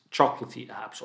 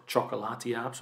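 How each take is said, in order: First: "chocolatey" said like the English word, chok-luh-tee; "chocolatey" with the middle swallowed, CHOK-luh-tee; tentative pronunciation. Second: "chocolati" drawn into four syllables, chok-uh-LAH-tee; alternative pronunciation. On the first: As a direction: say "chocolatey" quickly as chocolate plus ee. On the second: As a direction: stress the third syllable of "chocolati", an open LAH. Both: Shown as a demonstration. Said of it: "not really sure on how to pronounce it".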